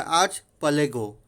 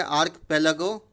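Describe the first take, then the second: First: "आर्च पलेगो" said with ch, arch-palego; slow, careful arch-palego with ch; archipelago with ch sound. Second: "आर्क पेलागो" said with a hard k, ark-pelago; slow, careful ark-pelago with k; archipelago with k sound. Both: Shown as a demonstration. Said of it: "इसका दो तरह से हम लोग कर सकते हैं".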